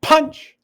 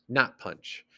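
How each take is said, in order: First: Big sudden high stress on Punch. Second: Not punch, said soft with no force on punch; unstressed. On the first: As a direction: PUNCH hit loud and high, a hard jab. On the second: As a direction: drop punch down quiet, unaccented. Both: Shown as a demonstration. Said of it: "stressing and unstressing".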